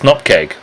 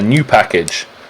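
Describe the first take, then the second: First: It is said as two syllables, nup-keg. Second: It is said as three syllables, new pack-age. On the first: The speaker calls it right. "the correct pronunciation" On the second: The speaker calls it wrong. "everyone else that we've had on says"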